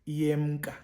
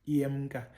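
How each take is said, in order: The two takes are said the same way.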